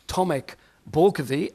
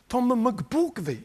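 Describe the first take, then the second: First: The first name is said as one word, Tomek. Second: The name is split into Tom and McBorkovi. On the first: "I'm Tomek Borkovi" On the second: "my name sometimes is pronounced like Tom McBorkovi"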